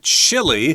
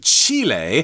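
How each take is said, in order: First: It is pronounced the English way. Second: It is pronounced the Spanish way. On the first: "that's how we pronounce it in English" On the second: "if you're speaking their native language of Spanish, you'd say Chile"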